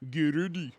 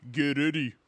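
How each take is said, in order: First: Punchy arcade fight announcer. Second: Loud arcade fight announcer. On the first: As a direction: bark it like a fighting game announcer. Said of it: "Having the guy going". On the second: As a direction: boom it like a fighting game announcer. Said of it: "the Darkstalker's announcer when he goes". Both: Retold or imitated.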